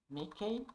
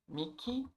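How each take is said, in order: No difference in how they are said.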